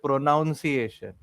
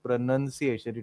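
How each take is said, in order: First: The second syllable sounds like 'noun'. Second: The second syllable sounds like 'nun'. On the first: The speaker calls it wrong. "people say pronunciation" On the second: The speaker calls it right. "It is just nun, so it is pronunciation"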